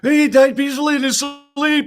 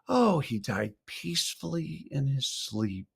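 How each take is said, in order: First: It is said in a knowing, jokey tone. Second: It is said gently and sincerely, as if peaceful.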